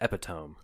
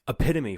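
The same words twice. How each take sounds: First: The word is said as spelled. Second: The word is said the standard way. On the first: The speaker calls it wrong. "I thought it was pronounced epitome up until a few years ago" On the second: The speaker calls it right. "for example"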